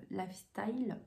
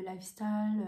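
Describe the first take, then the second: First: "lifestyle" retried slowly with an English "style"; "lifestyle" carefully re-said in French-accented English; corrected English accent. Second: "lifestyle" flattened to French "laf-stal"; "lifestyle" in a rough French accent; French-accented English. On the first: Shown as a demonstration. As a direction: say "style" with a clear "ai" glide. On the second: Real, not acted. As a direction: say "lifestyle" with plain "a" vowels. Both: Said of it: "J'adore mon accent anglais".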